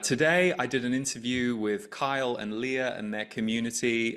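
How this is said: The tone is flat and neutral. It is simply a report of what happened. "pretty neutral, not trying to get you to believe anything"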